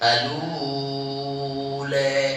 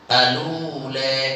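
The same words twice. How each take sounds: First: The vowel is lengthened for a medium count. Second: The vowel is lengthened for two counts. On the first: "watawasutu cara kedua" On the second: "cara pertama al qasru ... dua harokat"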